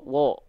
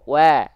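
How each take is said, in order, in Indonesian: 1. Vokalnya terdengar gelap, tebal, dan membulat. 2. Vokalnya terdengar jernih, tipis, dan terbuka. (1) "bukan wo"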